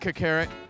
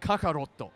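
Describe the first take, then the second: First: The name ends on a consonant 't' sound. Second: The name ends on an added 'o' vowel sound. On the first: The speaker calls it wrong. "I'm pronouncing that incorrectly on purpose" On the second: The speaker calls it right. "It's Kakaroto"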